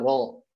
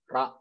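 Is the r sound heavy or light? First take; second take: heavy; light. First: The r sound is heavy and full. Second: The r sound is light and thin. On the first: The speaker calls it right. "jadi ada ketebalan di situ" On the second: The speaker calls it wrong. "nggak bisa kita bacanya"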